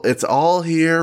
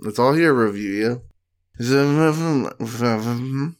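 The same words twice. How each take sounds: First: Drawn-out, high, stressed ALL in "it's all here"; slogan delivery. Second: Said in the usual way. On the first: Shown as a demonstration. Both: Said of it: "That's a good slogan".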